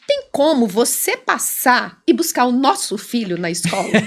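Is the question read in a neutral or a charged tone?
charged. It is read in a charged, accusing tone. The sender is annoyed or demanding. "Eu vou ler com essa entonação. Ele lia assim"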